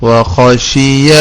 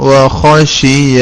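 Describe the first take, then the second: Both takes have the same delivery.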